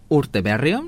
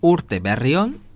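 First: The phrase is said at normal speed. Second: The phrase is said slowly and carefully.

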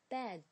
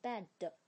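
First: The final d is light, with no added vowel. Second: An extra vowel sound follows the final d. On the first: The speaker calls it right. "这个的这个音呢在词尾的发音呢是很轻的" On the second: The speaker calls it wrong. "你不要说成bad 的，那是错误的一个发音"

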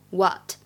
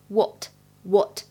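First: It has an American longer ah vowel. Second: It has a British short o vowel. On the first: "美式的发音会比较偏向长元音的啊一些，就会读起来像what" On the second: "英式读的是what 是短元音的o"

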